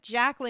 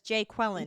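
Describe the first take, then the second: First: The name starts with a short 'Jack' sound. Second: The name starts with a long 'Jay' sound. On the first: "instead of Jacqueline" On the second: "he says Jay Quellen"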